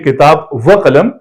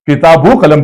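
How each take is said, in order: First: A separate 'va' stands between the two words. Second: An 'o' sound is joined onto the first word. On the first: This follows the Arabic rule. The speaker calls it wrong. "किताब व कलम नहीं पढ़ेंगे" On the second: This follows the Persian rule used in Urdu. The speaker calls it right. "इसको हम किताबो कलम पढ़ेंगे"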